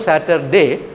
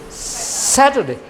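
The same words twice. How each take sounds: First: The stress falls on a later syllable. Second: The stress falls on the first syllable. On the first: The speaker calls it wrong. "Not a Saturday" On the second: The speaker calls it right. "all the weekdays should be pronounced with a stress on the first syllable"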